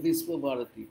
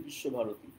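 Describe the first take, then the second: First: বিশ্বভারতী said as "Vis-wo-bharati"; a plain s and a w glide in বিশ্বভারতী; Hindi-style pronunciation. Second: বিশ্বভারতী said as "Bish-sho-bharoti"; sh sound and no w in বিশ্বভারতী; Bengali pronunciation. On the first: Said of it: "হিন্দিতে বলে". (হিন্দি ধাঁচে "বিশ্বভারতী", স দিয়ে) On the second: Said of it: "আমরা বাংলায় বলি". (বাংলা উচ্চারণে "বিশ্বভারতী", শ দিয়ে) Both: Shown as a demonstration.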